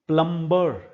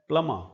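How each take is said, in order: First: The b sound is pronounced after the m. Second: The b sound is silent after the m. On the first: The speaker calls it wrong. "प्लम्बर ऐसे बोलते हैं बहुत सारे लोग इसको" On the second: The speaker calls it right. "ब को नहीं बोला जाता। ये शब्द है प्लमा"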